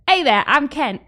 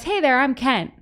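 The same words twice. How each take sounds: First: Shaky attempt at a British accent that comes out Australian; imitated British accent. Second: Said in the usual way. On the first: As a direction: do your best British innkeeper accent. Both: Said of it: "But, like, British accent".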